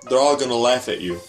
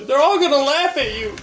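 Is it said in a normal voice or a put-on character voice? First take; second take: normal voice; character voice. First: It is said in the speaker's normal voice. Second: It is said in an imitated character's voice.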